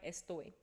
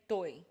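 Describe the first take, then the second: First: The word is said in full with its first syllable. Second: The first syllable is dropped from the word. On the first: This is the full standard form. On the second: This is how Colombians say it.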